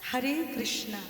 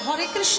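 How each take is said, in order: First: The name ends with an added long 'a' vowel. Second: The name ends without an added final vowel. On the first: The speaker calls it wrong. "তাই ওরা বলতে গিয়ে বলে হরে কৃষ্ণা" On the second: The speaker calls it right. "ওরা হরে কৃষ্ণ বলতে পারে না"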